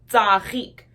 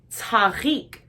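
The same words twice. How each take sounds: First: 'tzarik' with a tight ts, no puff of air; correct ts sound. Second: 'tzarik' opened with a breath after ts; aspirated ts variant. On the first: Teacher giving the word for flower, careful demo. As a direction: say 'tzarik' as tsah-reek. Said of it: "it would not be the same as". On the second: Teacher showing what flower is not, contrast demo. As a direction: say 'tzarik' as ts-hah-reek. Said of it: "it would not be the same as tzarik". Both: Shown as a demonstration.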